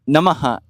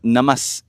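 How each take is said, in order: First: The word ends with a breathy h sound. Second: The word ends with a hissing s sound. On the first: The word stands alone. "why is it Namaha alone" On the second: The word comes before another sound. "but Namas in Namaste"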